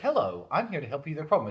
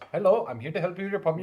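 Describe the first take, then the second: First: It is said in a neutral accent. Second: It is said in an Indian accent.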